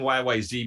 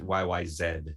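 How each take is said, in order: First: The final letter is said the American way. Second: The final letter is said the Canadian way. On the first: "I keep saying Y Y Z because I'm an American" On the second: "but they pronounce it Y Y Z"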